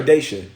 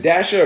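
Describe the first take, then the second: First: "Daisha", first syllable like "day"; Daisha pronunciation. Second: "Dasha", first syllable rhyming with ash; Dasha pronunciation. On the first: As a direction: say "Daisha" with a long ay. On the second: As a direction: say "Dasha" with the a of "dash". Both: Shown as a demonstration. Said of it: "Is it Dasha or Daisha?".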